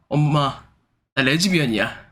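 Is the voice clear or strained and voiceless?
clear. The voice is clear and serious. "진지하게"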